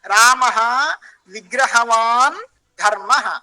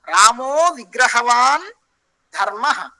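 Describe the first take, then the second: First: The first word ends in a separate 'ah' sound. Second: The first word ends in 'o', joined closely. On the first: The speaker chose not to join the words. "I can say like this" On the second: The speaker chose to join the words. "now I um, made Sandhi here"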